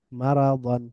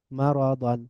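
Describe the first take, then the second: No difference in how they are said.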